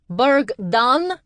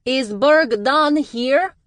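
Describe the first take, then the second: First: Much higher, loud searching call. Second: Much higher and louder, slow; calling out. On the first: A stranger seeking Berg, calling out loud. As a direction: call across the crowd. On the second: A stranger seeking Berg, high loud call. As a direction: call his name over the heads. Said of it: "a female voice called out". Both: A narrator's reading.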